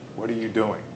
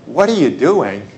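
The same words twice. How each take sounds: First: It is a plain, neutral question about activity. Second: It is a scolding question, like to misbehaving kids.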